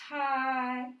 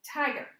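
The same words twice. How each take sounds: First: "tiger" split in two, long loud "ti", pause, "ger"; syllable by syllable, TI stressed. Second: "tiger" as one whole word, high loud "ti", light "ger"; stress on first syllable. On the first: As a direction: sound out "tiger" slowly, punching the first syllable. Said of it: "let's say it is stressed in the first syllable". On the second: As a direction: blend "tiger" together, hitting TI. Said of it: "The stress is on the first syllable of this word". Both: Shown as a demonstration.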